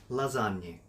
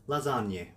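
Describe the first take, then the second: Both takes have the same delivery.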